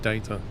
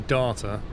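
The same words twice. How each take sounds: First: It is said in an English accent. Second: It is said in an Australian accent. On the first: "and we say data" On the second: "Australians say data"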